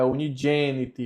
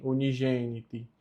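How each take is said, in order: First: "unigeniti" said oo-nee-JEH-nee-tee, with a dj; hard-onset soft G. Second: "unigeniti" with a zh G, as in Portuguese; soft G. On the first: Teacher correcting learners, G said as dj. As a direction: start the G of "unigeniti" with a D, like dj. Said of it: "ele fica a pronúncia G". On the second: Teacher showing the form to avoid, soft zh G. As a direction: soften the G of "unigeniti" to zh. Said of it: "não fica gen". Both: Shown as a demonstration.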